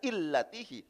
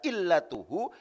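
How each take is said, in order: First: The vowel after the t is i. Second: The vowel after the t is u. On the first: The speaker calls it wrong. "tidak dibaca illatihi" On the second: The speaker calls it right. "Dibaca illatuhu dengan dibaca rofa"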